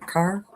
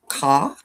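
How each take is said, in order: First: The word is said in a general accent. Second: The word is said in a Boston-area accent. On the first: "instead of" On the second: "she would say "ca""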